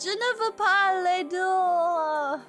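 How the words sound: It is said in a whiny voice.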